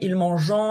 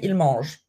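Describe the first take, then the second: First: The verb ends with an extra nasal vowel. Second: The verb ends in a plain consonant sound. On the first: The speaker calls it wrong. "we don't say ils mangeant" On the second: The speaker calls it right. "we say ils mangent"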